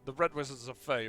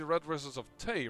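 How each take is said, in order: First: The last word begins with an F sound. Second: The last word begins with a T sound. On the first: The speaker calls it wrong. "I think I say Faye too much" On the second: The speaker calls it right. "I should perhaps say the Red Wizards of Tay"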